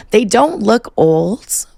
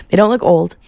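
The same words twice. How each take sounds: First: Put-on they "don't" look old, slow, pitch higher, rising at the end; drawn-out emphasis. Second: Said in the usual way. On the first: Shown as a demonstration.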